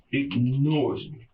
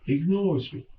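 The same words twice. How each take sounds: First: "Ignores" drawn out slowly and weighted; slow emphatic repeat. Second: Said in the usual way. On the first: Shown as a demonstration. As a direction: spell out "Ignores me" slowly, heavy on "Ignores".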